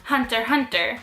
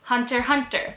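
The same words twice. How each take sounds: The two takes are said the same way.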